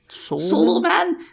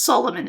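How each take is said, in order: First: The name is split into two separate words. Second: The name is said as one smooth word. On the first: The speaker calls it wrong. "not like" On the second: The speaker calls it right. "it's pronounced how it's spelled"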